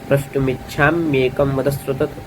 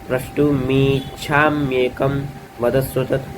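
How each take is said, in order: First: The i vowel is kept short. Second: The i vowel is drawn out long. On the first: The speaker calls it right. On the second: The speaker calls it wrong.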